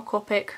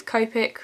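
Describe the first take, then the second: First: "Copic" with a short o, like "cop-ick"; first syllable of "Copic" rhymes with top; short-o pronunciation. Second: "Copic" with a long o, like "cope-ick"; first syllable of "Copic" rhymes with rope; long-o pronunciation. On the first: Vlogger giving the alternative brand pronunciation, "Copic" said COP-ick. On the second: Vlogger guessing at the marker brand's name, "Copic" said COPE-ick. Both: Shown as a demonstration. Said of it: "don't really know how to pronounce it".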